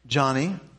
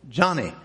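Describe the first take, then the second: First: The name is said softly. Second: The name is said forcefully.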